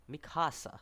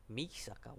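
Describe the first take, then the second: First: "Mikasa" said mi-KAH-sa; careful "Mikasa", landing on KAH; name corrected. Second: "Misaka" said MEE-sa-ka, quietly; softly muffed "Misaka", stress up front; name mispronounced. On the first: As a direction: stress the middle of "Mikasa", k before s. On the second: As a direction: swap the consonants to say "Misaka", s before k. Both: Real, not acted. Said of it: "I'm losing my name concentration".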